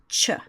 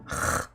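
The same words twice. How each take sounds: First: It is a soft ch, as in church. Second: It is a rough, throaty sound from the throat. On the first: The speaker calls it wrong. "that does not mean that we should pronounce it as ch" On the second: The speaker calls it right. "C H represents the sound ch, as in Bach"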